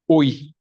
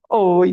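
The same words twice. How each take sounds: First: It is said in a dry, cold tone. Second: It is said in a sweet, warm tone.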